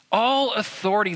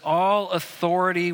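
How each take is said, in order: First: All authority, with All lifted higher; stress on All. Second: Said in the usual way. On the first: Shown as a demonstration. Pastor repeating the verse to the church, All stressed. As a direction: lean hard on All in All authority.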